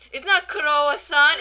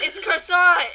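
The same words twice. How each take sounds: First: "Kurowa-san" loudly quoted as a Japanese-style name; loud mock correction, "Kurowa-san" as the wrong word; correcting mispronunciation. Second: "croissant" loud and high, as one word; exasperated mock correction landing on "croissant"; correct pronunciation. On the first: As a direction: punch out "Kurowa-san" with its extra vowels. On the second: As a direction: hammer home "croissant" without the extra syllables. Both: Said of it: "And then Kawachi's like".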